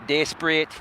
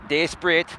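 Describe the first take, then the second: Both takes have the same delivery.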